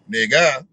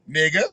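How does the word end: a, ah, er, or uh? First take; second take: ah; a. First: The word ends in an open 'ah' vowel. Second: The word ends in a short 'a' vowel. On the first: "it might be a A H" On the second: "it might be a A"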